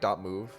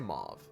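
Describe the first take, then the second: First: The vowel sounds like the one in 'movie'. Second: The vowel sounds like the one in 'mauve'. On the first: "supposed to be like dot .move, like movie" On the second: "I'm gonna say mauve. Like the color"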